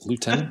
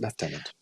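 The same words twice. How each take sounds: First: The first syllable is said without an f sound. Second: The first syllable is said with an f sound. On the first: "It's spelled lieutenant" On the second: "they pronounce it lieutenant. With an F"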